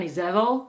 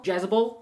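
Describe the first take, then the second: First: Jezebel said the Hebrew way, soft Izevel; Hebrew name Izevel. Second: Jezebel said the English way, hard J, jez-uh-bel. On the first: Teacher naming the queen in Hebrew, Izevel pronunciation. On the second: Teacher giving the English name, plain English Jezebel. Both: Shown as a demonstration.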